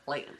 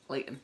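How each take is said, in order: First: The middle T is dropped. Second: The middle T is dropped.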